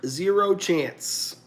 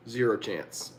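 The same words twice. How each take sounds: First: "Zero chance" said slower and higher, leaning on "Zero"; slow emphatic repeat. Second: Said in the usual way. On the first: Shown as a demonstration.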